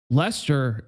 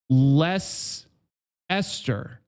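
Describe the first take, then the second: First: It is said in two syllables, as 'Lester'. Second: It is said in three syllables, with 'Esther'. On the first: The speaker calls it wrong. "Lester is just straight bullshit" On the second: The speaker calls it right. "I would be down if we said less Esther. That's okay"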